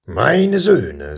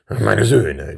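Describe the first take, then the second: First: Higher, swelling royal address; king starting over. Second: Measured opening of a royal address; king repeating himself. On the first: King trying a third time to address his sons, insistent. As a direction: make this attempt higher and more insistent. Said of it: "setzte der König nun zum dritten Mal an". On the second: King addressing his two sons, measured. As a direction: repeat the address in your usual register. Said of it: "wiederholte er". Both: A narrator's reading.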